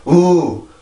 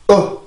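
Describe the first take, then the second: First: The vowel flows out smoothly without tension. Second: The vowel starts with a tense, caught throat. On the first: The speaker calls it wrong. "우, 우. 이렇게 내는 게 아니라" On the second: The speaker calls it right. "소리를 한번 변형을 시켜주고 있단 말이에요"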